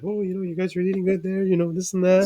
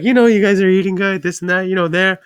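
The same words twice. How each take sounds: First: High, hushed imitation of mom; mom's voice. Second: High, raised imitation of mom; mom's voice, louder. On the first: Son mimicking his mom commenting on his eating, high and quiet. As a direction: put on a soft, high-pitched motherly voice. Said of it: "and she's like". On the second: Son redoing his mom's remark after "speak louder", high and loud. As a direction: mimic mom in a high voice, projecting it. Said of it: "Speak louder".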